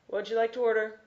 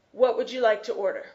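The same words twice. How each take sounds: First: Said in the usual way. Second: Rattled off fast like a drive-through clerk. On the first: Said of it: "So I'll practice with the student". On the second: Shown as a demonstration. Drive-through worker rattling off the order question fast. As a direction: rush it out in one quick breath. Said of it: "they'll say this very fast".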